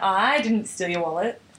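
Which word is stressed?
I. The stress falls on the word I. Someone else stole it. "Someone else did"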